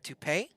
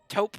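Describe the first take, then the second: First: The word has two syllables, ending in 'ay'. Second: The word has one syllable, rhyming with soap. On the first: The speaker calls it wrong. "I know that's not how you pronounce it" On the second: The speaker calls it right. "taupe like soap with a T"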